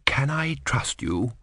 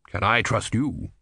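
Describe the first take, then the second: First: Slow breathy whisper; whispered question. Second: Said in the usual way. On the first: Acted. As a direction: whisper it so the eagle can't hear. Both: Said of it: "said Fryatt".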